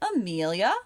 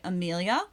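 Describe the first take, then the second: First: The pitch drops in the middle of the word. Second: The pitch does not drop in the middle. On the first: "It drops in the middle" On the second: "American English speakers usually say Amelia"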